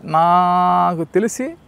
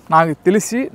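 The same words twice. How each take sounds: First: Drawn out slowly. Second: Said in the usual way. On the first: Shown as a demonstration. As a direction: stretch నాకు తెలిసి very slowly, rising at the end. (నాకు తెలిసి చాలా నెమ్మదిగా సాగదీసి)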